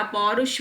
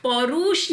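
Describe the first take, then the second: First: पौरुष said "pau-rush"; short "u" in पौरुष; correct short vowel. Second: पौरुष said "pau-roosh"; long "oo" in पौरुष; wrong long vowel. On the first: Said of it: "र पे छोटा ऊ की मात्रा". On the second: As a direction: stretch the u in पौरुष. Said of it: "पौरुष नहीं होता". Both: Shown as a demonstration.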